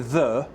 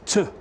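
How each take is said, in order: First: The word is said in full. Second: The word is reduced to a bare t sound. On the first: "when I say the" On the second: "it's t"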